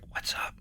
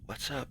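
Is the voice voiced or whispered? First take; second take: whispered; voiced. First: It is whispered without using the vocal cords. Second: It is spoken aloud using the vocal cords.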